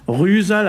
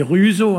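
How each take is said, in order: First: RUSAL said with a final -al; local ending in -al. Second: RUSEAU with a final o, no l; ending in -o elsewhere. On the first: Explaining the local form to listeners, "rusal" ending in -al. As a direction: end "rusal" on an open a plus l. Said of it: "J'ai dit tout à l'heure ici, on dit rusal". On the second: Contrasting another area's form for listeners, "ruseau" ending in -o. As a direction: end "ruseau" on a plain o sound. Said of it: "ailleurs on dit ruseau". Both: Shown as a demonstration.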